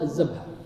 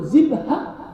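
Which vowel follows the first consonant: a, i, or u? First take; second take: a; u. First: The first consonant is followed by an a vowel. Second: The first consonant is followed by a u vowel. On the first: The speaker calls it wrong. "لا تقولوا الذبحة" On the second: The speaker calls it right. "بالضم"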